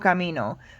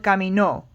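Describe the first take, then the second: First: The stress is on the middle syllable. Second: The stress is on the last syllable. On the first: I walk. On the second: He walked.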